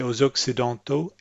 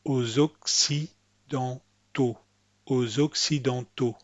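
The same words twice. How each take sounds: First: AUX OCCIDENTAUX with a lax, reduced CI; anglicised AUX OCCIDENTAUX, shallow CI; slack English-style C. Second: AUX OCCIDENTAUX slowly, with a deep, clear SEE for CI; careful French AUX OCCIDENTAUX, deep CI. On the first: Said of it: "Don't say aux Occidentaux". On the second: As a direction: say AUX OCCIDENTAUX syllable by syllable, full SEE in the middle. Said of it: "this C is a nice deep C". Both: Shown as a demonstration.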